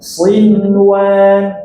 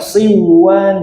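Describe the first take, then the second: First: The n is pronounced clearly before the w. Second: The n is merged away into the w. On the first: The speaker calls it right. "tidak terjadi idgham" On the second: The speaker calls it wrong. "Jadi jangan dibaca siwan, jangan"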